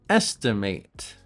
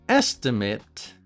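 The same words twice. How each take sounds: Both takes have the same delivery.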